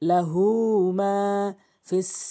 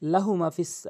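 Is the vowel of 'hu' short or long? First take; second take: long; short. First: The vowel of hu is drawn out. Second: The vowel of hu is short. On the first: The speaker calls it right. "লাহু হু অবশ্যই টেনে পড়বেন" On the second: The speaker calls it wrong. "অধিকাংশ লোক টেনে পড়ে না"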